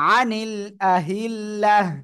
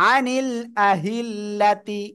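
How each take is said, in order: First: The last word ends with a silent h sound. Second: The last word ends with a ti syllable. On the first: The speaker calls it right. "গোলটা এরকম হা হয়ে যাবে আর সাকিন হবে।" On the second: The speaker calls it wrong. "এটা না হয়ে"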